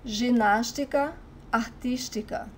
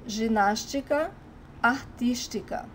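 No difference in how they are said.

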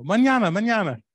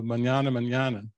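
First: High, bright and breezy, a louder sing-song mañana; laughing brush-off. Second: Said in the usual way. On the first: Retold or imitated. Mexican friends putting off repairs, breezy high sing-song. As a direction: toss it off with a laugh, no hurry at all. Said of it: "when they laugh and they go". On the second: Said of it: "an official translation of".

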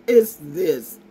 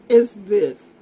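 No difference in how they are said.

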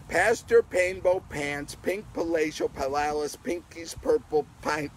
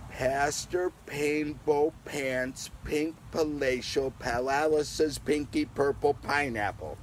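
First: Faster tongue twister. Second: Slow, careful tongue twister read; half-speed sing-song reading. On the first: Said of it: "we'll say it a little faster". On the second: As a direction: go slowly word by word. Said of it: "Let's say them slowly together". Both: Shown as a demonstration.

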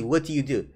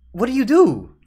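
First: Said in the usual way. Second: High, loud, baffled question; exasperated outburst. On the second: Real, not acted. Viewer with no answer to the shot, exasperated outburst. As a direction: throw it out in helpless disbelief. Exasperated, then calmer repeat.

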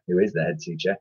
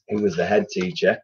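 First: Is leaned on as a correction; who is the head teacher, is pressed; stress on is. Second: Said in the usual way. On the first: Shown as a demonstration. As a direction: correct yourself, hitting is.

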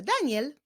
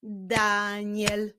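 First: Said in the usual way. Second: "Daniel" as long da, then niel; "Daniel" drawn out by syllables; split into syllables. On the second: Shown as a demonstration. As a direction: stretch "Daniel" into two beats. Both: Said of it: "imię zbudowane z dwóch".

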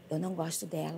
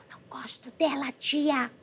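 First: Laughing imitation. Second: Sulky mother voice. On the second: Retold or imitated. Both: Mother jealous of granddaughter.

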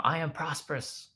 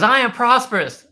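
First: High, softer model line; re-enacted prompting chant; affirmation prompt. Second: High, loud imitation of a child; mock kid's shout; daughter echoing loudly. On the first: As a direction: offer it up high for a child to repeat. Dad feeds daughter the next affirmation. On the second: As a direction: yell it back like an eager little girl. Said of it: "She goes".

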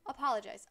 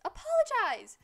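First: Firm order at usual pitch; firm demand. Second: High, loud yelled order; shouted demand. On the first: Streamer tells a game character to apologize, firm but not yet shrieking. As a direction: demand it, holding back the shout. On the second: Streamer demands a game character apologize, yelling high and loud. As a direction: escalate into an outraged shout. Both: Pretend.

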